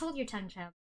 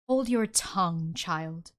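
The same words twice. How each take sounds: First: It is read in the speaker's ordinary voice. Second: It is said in a put-on character voice.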